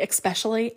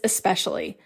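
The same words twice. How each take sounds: First: The word begins with an 'ex' sound. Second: The word begins with a plain 'es' sound. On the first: The speaker calls it wrong. "If someone puts an X and they say" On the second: The speaker calls it right. "it's always this word"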